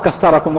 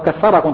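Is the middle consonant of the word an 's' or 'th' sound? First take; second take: s; th. First: The middle consonant is an s sound. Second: The middle consonant is a th sound. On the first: It sounds like 'may God break you'. The speaker calls it wrong. "ما قل كسركم" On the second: It means 'may God multiply you'. The speaker calls it right. "قل كثركم طبعا"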